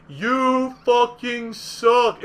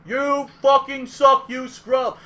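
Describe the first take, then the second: First: Drawn-out loud jeer; megaphone taunt. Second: Loud, slow jeering shout; megaphone taunt. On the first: Imagining a megaphone in your face, slow loud jeer. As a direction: stretch it out, loud and mocking. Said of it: "putting a megaphone directly in your face and going". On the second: Heckler taunting Duck Junior through megaphone, loud jeer. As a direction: jeer right in his face. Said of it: "he goes". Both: Retold or imitated.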